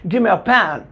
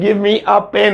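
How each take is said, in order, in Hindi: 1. 'Give me' मिलकर 'gimme' हो जाता है। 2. 'Give me' दो पूरे शब्दों की तरह बोला जाता है। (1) "अब कैसे बोलेंगे" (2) "पहले कैसे बोलते थे"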